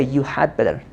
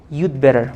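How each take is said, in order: First: "you had better" with "had" said out in full, uncontracted; full form had better. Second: "You'd better" said as one quick word, you'd running into better; contracted you'd better. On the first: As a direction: say every word of "you had better" separately. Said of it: "We don't say". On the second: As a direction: glide "You'd better" together, never "you had". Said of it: "It is pronounced like what?". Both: Shown as a demonstration.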